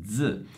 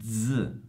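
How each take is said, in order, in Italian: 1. La z è un suono sonoro, dz. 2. La z è un suono sonoro, dz.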